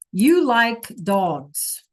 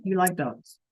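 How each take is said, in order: First: Very slow You like dogs, falling; slow gloss. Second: Said in the usual way. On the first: Shown as a demonstration. Teacher slowly translating for students. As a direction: drag out each word. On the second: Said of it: "Simple sentence".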